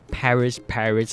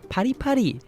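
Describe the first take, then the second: First: It is said in a plain, uncute way. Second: It is said in a cute, playful way. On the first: The speaker calls it wrong. "It's not that sort of like uh, way of saying" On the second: The speaker calls it right. "you have to sound cute"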